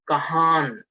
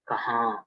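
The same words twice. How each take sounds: First: The final n is fully pronounced. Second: The final n is only a nasal sound. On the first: The speaker calls it wrong. "then the pronunciation is wrong" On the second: The speaker calls it right. "the N is half sound"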